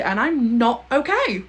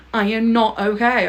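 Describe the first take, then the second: First: Drawn out slowly, okay falling away; slow dramatic sigh. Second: Not hit firmly, okay falling; stress on not. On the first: Admitting to viewers she's emotionally wrecked, slowly. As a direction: let it sink slowly, half-mock despair. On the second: Insisting to viewers she's wrecked, stress on not. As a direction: lean hard on not as a declaration. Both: Real, not acted.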